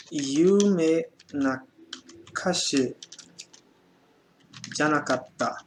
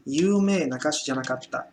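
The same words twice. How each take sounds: First: "Yume Nakashi janakatta" stretched word by word; slow dictation. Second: Said in the usual way. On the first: Shown as a demonstration. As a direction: dictate very slowly for students. (ditado muito lento) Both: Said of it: "E por último".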